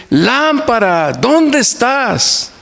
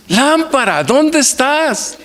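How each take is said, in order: First: Put-on high, slow, drawn-out child's call with eyes shut. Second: Put-on much higher, slow, sing-song child's cry; child's shout. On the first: Grandfather imitating his grandson calling the lamp, high and slow. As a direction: call the lamp like a small boy, stretching each word. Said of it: "fuertemente decir". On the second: Preacher retells grandson crying out for the lamp, high and slow. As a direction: cry out to the lamp like a three-year-old, stretching the words. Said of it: "y grita".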